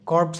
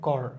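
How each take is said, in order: First: It ends with a ps sound. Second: It ends with an r sound. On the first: The speaker calls it wrong. "কর্পস হবে না" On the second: The speaker calls it right. "এখানে উচ্চারণ হবে কর"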